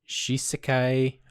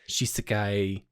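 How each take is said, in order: First: The middle syllable is said fully. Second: The middle syllable is rushed very quickly. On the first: "it's like Shisekai" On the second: "sometimes the the se is like it's like very fast"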